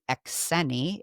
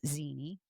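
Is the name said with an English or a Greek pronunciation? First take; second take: Greek; English. First: The name has its original Greek pronunciation. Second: The name has an everyday English pronunciation. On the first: "really Exeni, if you're gonna say it correctly in the Greek pronunciation" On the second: "my name is Zini"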